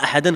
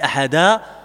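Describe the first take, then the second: First: The word ends with an n sound. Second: The word ends without an n sound. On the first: The speaker calls it wrong. "On ne dit pas ahadan quand on s'arrête à ce moment-là" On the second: The speaker calls it right. "on dit ahada quand on lit le Coran"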